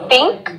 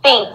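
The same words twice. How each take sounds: First: The word starts with a sound other than th. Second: The word starts with a soft th sound. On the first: The speaker calls it wrong. "Some people say think or think. And this is not English" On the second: The speaker calls it right. "if you don't say, for example, think"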